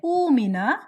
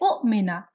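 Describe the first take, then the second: First: The hamzas merge into one smooth long vowel. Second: A glottal catch separates the two hamza sounds. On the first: The speaker calls it right. "you say umina" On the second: The speaker calls it wrong. "You don't say u'mina"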